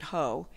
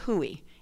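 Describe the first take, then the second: First: The name is said as one syllable, 'hoe'. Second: The name is said as two syllables, 'hoo-ey'. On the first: This is the pronunciation the speaker was taught. "I was taught to say the word Hoe" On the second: This is how locals in Fairfax County say it. "In Fairfax County, they say Hooey"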